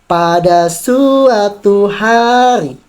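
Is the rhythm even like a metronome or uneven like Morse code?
uneven. Syllables have uneven, stress-timed English rhythm. "tapi di Inggris kita contoh dengan kata yang sama"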